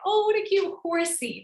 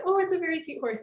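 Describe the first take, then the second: First: "horsey" said fondly, pitched up; cute, high and sweet. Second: Said in the usual way. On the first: Shown as a demonstration. Teacher showing the cutesy form of the word. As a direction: coo over a cute little horse. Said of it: "I can say". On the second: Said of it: "if I see a horse and I wanna say".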